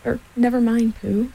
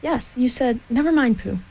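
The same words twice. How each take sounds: First: Mildly consoling reassurance; comforting. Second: Impatient. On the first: Piglet consoling Pooh, comforting. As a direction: soothe a friend who feels left out. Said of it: "said Piglet comfortingly". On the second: Piglet dropping the muddle with Pooh, impatient. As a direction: brush Pooh off with a touch of impatience. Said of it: "said Piglet impatiently". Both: A narrator's reading.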